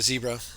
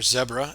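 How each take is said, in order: First: It is said in the speaker's usual way. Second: It is said the South African way.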